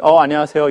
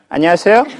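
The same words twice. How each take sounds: First: A cool, offhand hello; curt greeting. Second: A bright hello that lifts at the end; warm greeting. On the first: 반기지 않는 학생에게 건네는 무심한 인사. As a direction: greet without any warmth. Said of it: "이렇게 한다고요". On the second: 반가운 학생에게 건네는 따뜻한 인사. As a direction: welcome them gladly. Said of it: "이러나요?". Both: Shown as a demonstration.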